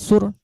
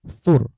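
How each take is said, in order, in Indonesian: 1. Kata ini diawali bunyi s desis. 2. Kata ini diawali bunyi th lembut. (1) "Jangan sur" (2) "tapi sur"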